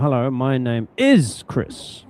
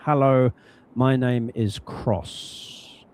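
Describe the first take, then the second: First: The stress falls on the word is. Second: The stress falls normally, on the name.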